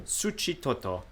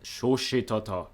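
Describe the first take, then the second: First: Soft, raised-pitch imitation of the Spanish accent; putting on the accent. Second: Slow, lightly mock-Japanese pronunciation; Japanese-like accent. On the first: Vlogger copies the translator's pronunciation, putting on a Spanish accent. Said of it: "Why am I doing the accent?". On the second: Real, not acted. Vlogger retries a Salvadoran city's name, Japanese-like accent. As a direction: say it slowly, as if it were Japanese. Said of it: "saying it like it's Japanese".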